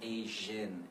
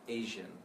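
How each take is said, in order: First: The second syllable has a short 'i' vowel. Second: The second syllable has a weak 'uh' vowel. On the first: "So it's an I sound for me" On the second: "you could even try this schwa sound"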